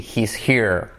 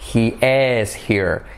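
First: He and is merge into one syllable. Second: He and is are said as two separate words. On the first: "pero se contrae así" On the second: "Si lo descontraes"

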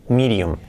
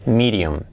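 No difference in how they are said.

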